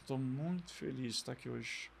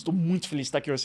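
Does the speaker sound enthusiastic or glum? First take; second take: glum; enthusiastic. First: The voice sounds flat and unenthusiastic. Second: The voice sounds lively and enthusiastic. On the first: The speaker is not actually happy to be there. "a minha expressão corporal e o meu tom de voz indicam o contrário" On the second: The speaker is genuinely happy to be there. "Estou feliz aqui hoje com expressão"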